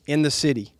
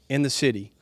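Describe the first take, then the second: No difference in how they are said.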